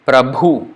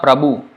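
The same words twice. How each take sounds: First: "Prabhu" with a breathy, aspirated bh. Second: "Prabhu" with a plain unaspirated b; wrong Prabhu. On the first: Teacher giving students the aspirated bh, clear. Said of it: "B H. Bha". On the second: Teacher showing students the plain-b error, mild. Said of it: "It's not Prabhu". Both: Shown as a demonstration.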